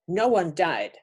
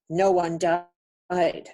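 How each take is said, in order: First: Said in the usual way. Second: Very slow, weighty voice for a spoken message; slow solemn message. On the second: Retold or imitated. Retelling the message she heard in her dream, slow and grave. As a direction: give each word weight, slowly. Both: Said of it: "I was told".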